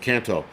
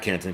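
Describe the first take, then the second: First: The name ends with a vowel sound. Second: The name ends with an n sound. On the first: The speaker calls it right. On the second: The speaker calls it wrong. "not Canton"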